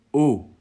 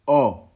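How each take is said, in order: First: "O" as in pot; closed O. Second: "O" as in porte; open O. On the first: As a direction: say "O" firmly with the closed vowel of pot. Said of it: "comme dans pot". (« O » fermé, comme dans pot) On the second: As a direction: say "O" firmly with the open vowel of porte. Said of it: "comme dans porte". (« O » ouvert, comme dans porte) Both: Shown as a demonstration.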